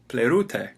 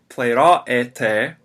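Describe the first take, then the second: First: The middle vowels are blended into one diphthong. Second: The middle vowels are said as separate sounds. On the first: The speaker calls it right. "the Greeks would say plerute" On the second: The speaker calls it wrong. "instead of uh, saying pleiraete"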